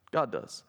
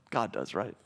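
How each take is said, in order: First: God does settled with a falling tune; low, final God does; stating God does. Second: Low, rising question on God does; God does asked low with a rising tune; asking God does. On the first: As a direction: close it as a firm fact. Preacher confirms the answer. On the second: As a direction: invite the answer, voice lifting at the end. Preacher prompts congregation answer. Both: Shown as a demonstration.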